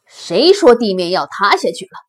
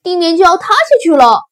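First: Loud, doubting question to the herd; challenging lion. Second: Loud, high, rushed warning; timid rabbit shrieking the alarm; panicked shout. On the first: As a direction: demand to know who said it. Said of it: "狮子说". (狮子大声质疑) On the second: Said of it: "胆小兔叫道". (惊慌地高声急喊) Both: Acted.

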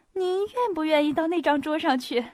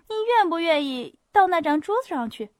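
First: Raised, politely urgent invitation; polite interruption. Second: Louder, higher pressing invitation; insistent repeat. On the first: Hostess inviting Pierre to another table, urgent. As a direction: cut in to steer him away. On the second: Hostess repeating her invitation to Pierre, insistent. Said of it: "把话重新说了一遍". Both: A narrator's reading.

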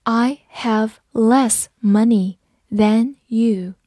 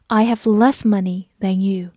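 First: Each word set apart; unhurried teacher's model, word by word; slow read-through. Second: Said in the usual way. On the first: Shown as a demonstration. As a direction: say it slowly with pauses between words. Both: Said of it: "好，慢读一遍".

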